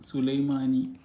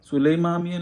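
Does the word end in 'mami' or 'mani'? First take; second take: mani; mami. First: The word ends with the syllables 'mani'. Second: The word ends with the syllables 'mami'. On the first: The speaker calls it right. "അല്ല സുലൈമാനി" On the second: The speaker calls it wrong. "സുലൈമാമി അല്ല"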